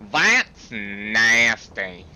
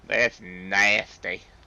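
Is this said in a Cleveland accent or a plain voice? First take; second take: Cleveland accent; plain voice. First: It is said in a put-on Cleveland accent. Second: It is said in the speaker's ordinary accent.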